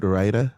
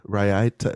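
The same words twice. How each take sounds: First: "Raita" in two syllables, RYE-tuh, rising; questioning pronunciation. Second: "Raita" with an extra syllable, rye-AT-uh, rising; questioning pronunciation. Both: Shown as a demonstration. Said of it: "Is that how you say it".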